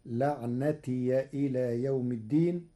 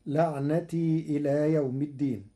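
First: لعنتي said as laʿnatiya, the final ya carrying fatha; Warsh open ya. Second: Said in the usual way. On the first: Shown as a demonstration. Teacher reciting لعنتي with fatha on the ya. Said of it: "فتصير". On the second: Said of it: "بفتح الياء".

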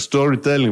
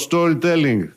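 First: "Storytelling" in an American accent. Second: Said in the usual way. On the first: Shown as a demonstration. (αμερικάνικη προφορά στο "Storytelling") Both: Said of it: "που το λέγαμε Αμερικάνη προφορά".

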